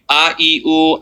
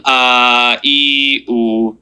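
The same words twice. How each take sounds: First: "a, e, oo" said short, one quick beat each; short vowels. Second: "a, e, oo" each stretched to two beats on a level note; two-count vowels. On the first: Teacher reciting the basic accents, short even "a, e, oo". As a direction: keep "a, e, oo" brief and evenly spaced. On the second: Teacher counting out the long accents, stretched "a, e, oo". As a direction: hold each of "a, e, oo" evenly long. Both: Shown as a demonstration. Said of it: "Two counts".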